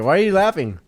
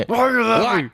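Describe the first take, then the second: First: Mildly annoyed. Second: Higher, louder mock outrage; mock indignant. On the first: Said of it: "getting fucking heckled". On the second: Storyteller heckled by his laughing friend, mock indignant. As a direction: pretend to be offended. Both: Real, not acted.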